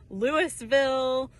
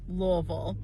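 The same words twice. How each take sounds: First: It is said the common outsider way. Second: It is said the local Kentucky way. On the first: "everybody calls it Louisville" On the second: "the Kentucky pronunciation is Louisville"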